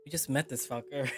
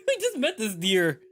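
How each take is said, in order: First: Said in the usual way. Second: Higher, louder, laughing through the fix; laughing correction. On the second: Real, not acted. Laughing as he fixes the word to his co-player. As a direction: correct the slip with a giggle.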